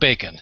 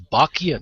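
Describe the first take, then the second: First: The name sounds just like 'bacon'. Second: The name does not sound like 'bacon'. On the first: The speaker calls it wrong. "not bacon" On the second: The speaker calls it right. "it's Bachian"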